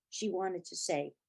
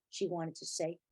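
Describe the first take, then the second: No difference in how they are said.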